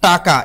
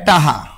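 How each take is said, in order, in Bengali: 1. প্রথম স্বরধ্বনি খোলা, মাঝে 'k' আছে। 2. প্রথম স্বরধ্বনি খোলা, মাঝে 'h' আছে। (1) "এটা হলো শুদ্ধ" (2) "এটাকে বরিশালেরা কয় টাহা"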